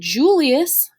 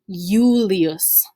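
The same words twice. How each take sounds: First: The word starts with a J sound. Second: The word starts with a Y sound. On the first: "there's no J's in Latin" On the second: "originally pronounced with an I instead of a J"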